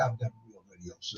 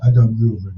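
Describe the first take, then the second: First: Low, hushed retelling of her line; imitating lowered voice. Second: Low, loud mock radio voice; imitated radio voice. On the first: Guest recounting her studio boast, imitated low and quiet. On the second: Host imitating her radio boast, in a lowered radio voice. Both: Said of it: "did you hear her voice go down".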